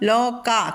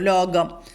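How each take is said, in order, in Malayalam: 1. നടുവിലെ വ്യഞ്ജനം കഠിന 'ക'യാണ്. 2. നടുവിലെ വ്യഞ്ജനം മൃദു 'ഗ'യാണ്. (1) "കാ പറയണം" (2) "മിക്കവാറും എല്ലാവരും ലോകം എന്നേ പറയുള്ളൂ. ... ഗാ മൃദുവാണ്"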